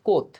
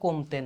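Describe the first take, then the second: First: It is said as one syllable, ending in t. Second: It is said as two syllables, ending in -te. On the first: The speaker calls it right. "এটার উচ্চারণ হচ্ছে কোত" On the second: The speaker calls it wrong. "এইটার উচ্চারণ আসলে কমতে না"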